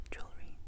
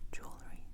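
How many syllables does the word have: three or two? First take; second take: two; two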